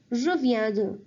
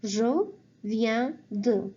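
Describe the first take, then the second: First: Said in the usual way. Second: "Je viens de" drawn out slowly; slow model phrase. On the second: Shown as a demonstration. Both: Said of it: "you say".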